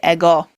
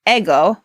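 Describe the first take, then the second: First: The stress is on the second syllable. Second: The stress is on the first syllable. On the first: The speaker calls it right. "It's actually ego" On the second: The speaker calls it wrong. "with all of our English background ... must be ego, but it's not"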